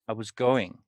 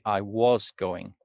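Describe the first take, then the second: First: The word 'was' is weak and barely heard. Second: The word 'was' is fully and clearly pronounced. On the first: The speaker calls it right. "if I say this naturally, ... you barely hear the was" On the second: The speaker calls it wrong. "If I say it unnaturally, like most students"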